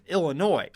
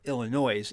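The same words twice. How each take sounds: First: It is said with the usual standard pronunciation. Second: It is said with the local St. Louis pronunciation.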